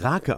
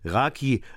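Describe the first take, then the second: First: The word ends in a dull 'uh' vowel. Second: The word ends in a clear 'ee' vowel. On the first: The speaker calls it right. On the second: The speaker calls it wrong.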